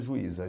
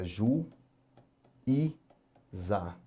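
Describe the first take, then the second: First: Said in the usual way. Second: "Ju, i, za" with long pauses between syllables. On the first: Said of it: "vamos ler, vamos ver". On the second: Shown as a demonstration. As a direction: read out "Ju, i, za" one isolated syllable at a time. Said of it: "vamos ler, vamos ver juíza". ("Ju, i, za" separando bem as sílabas)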